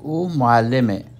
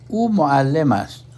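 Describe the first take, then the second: First: The sentence ends with a short 'e'. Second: The sentence ends with a full 'ast'. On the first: It is the everyday Iranian form. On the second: It is the formal form.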